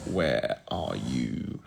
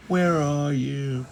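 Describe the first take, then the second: First: Low, very slow singsong; low drawled-out search call; drawn-out searching. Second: High, slow singsong call; high-pitched, stretched-out search call. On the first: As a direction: stretch it out low while hunting for something. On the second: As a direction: sing it out high while hunting for something. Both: Real, not acted. Searching for the Muppets list.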